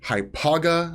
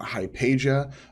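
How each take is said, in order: First: The name ends with a hard 'ga' sound. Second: The name ends with a 'sha' sound. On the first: The speaker calls it right. "it is pronounced Hypaga" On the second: The speaker calls it wrong. "not Hypatia"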